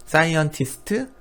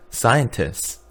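First: Saiontistɯ with a rising Korean lilt; Korean-style reading. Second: 사이언티스트 said as sajantis, final vowel dropped; American pronunciation. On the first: 학생들에게 한국식 읽기를 보여주며, 높게 올림. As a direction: read 사이언티스트 syllable by syllable, Korean style. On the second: 학생들에게 미국식 발음을 시범, 끝을 내림. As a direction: clip 사이언티스트 short and American. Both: Shown as a demonstration. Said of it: "이런 식으로".

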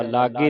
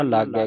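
First: ਲਾਗੇ with a narrow final e; wrong vowel ending. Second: ਲਾਗੈ with a wide final ai; double-lavan vowel. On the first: Teacher shows congregation the reading to avoid, ਲਾਗੇ with closed e. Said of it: "ਲਾਗੇ ਨਹੀਂ ਪੜ੍ਹਨਾ". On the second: Teacher corrects congregation's reading, ਲਾਗੈ with open ai. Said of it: "ਦਲਾਵਾਂ ਮੈਂ ਤੁਹਾਨੂੰ ਤਾਂ ਦੱਸ ਰਿਹਾ". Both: Shown as a demonstration.

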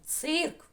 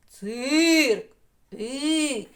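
First: «Цирк» вимовлено чітко й протяжно, з підйомом; вимовити «Цирк» ротом, по звуках; чітко вимовлене слово. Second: «Цирк» голосно, протяжно, зі спадом; проспівати «Цирк» на повний голос; голосно проспіване слово. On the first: (чітка вимова слова) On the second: (гучна вимова для дітей) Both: Shown as a demonstration. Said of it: "Промовляємо ротом".

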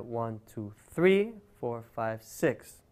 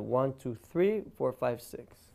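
First: "three" rises and stands out in the count; teaching the count with accents; accent on three and six. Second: Accented count in groups of three; accent on three and six. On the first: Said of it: "the accent is gonna be on three and on six". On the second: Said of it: "the accent... on the last beat". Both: Shown as a demonstration.

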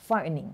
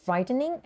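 First: Frightening shortened to fright-ning; second pronunciation variant. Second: Frightening in three syllables, fright-en-ing; first pronunciation variant. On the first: (frightening ออกเสียงสั้นสองพยางค์) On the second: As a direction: say frightening with a separate middle syllable. (frightening ออกเสียงสามพยางค์) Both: Shown as a demonstration. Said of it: "two ways to pronounce it like".

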